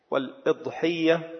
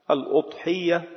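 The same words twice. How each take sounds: First: والإضحية with an "i" on the hamza, wal-idhiyya; kasra on the hamza. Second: الأضحية with an "u" on the hamza, al-udhiyya; damma on the hamza. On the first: Teacher showing the word's variants, والإضحية with kasra, "wal-idhiyya". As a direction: say والإضحية as "wal-ID-hiyya", opening on i. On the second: Teacher showing the word's variants, الأضحية with damma, "al-udhiyya". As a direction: say الأضحية as "al-UD-hiyya", opening on u. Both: Shown as a demonstration. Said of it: "بضم الهمزة وبكسرها".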